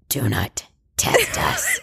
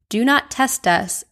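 First: It is said in a creepy voice. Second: It is said in a normal voice.

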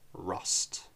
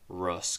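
First: The final T sound is clearly pronounced. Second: The final T sound is dropped. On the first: "Rust with a hard T" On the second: "definitely cooler in an American accent, kind of a Russ Cole"

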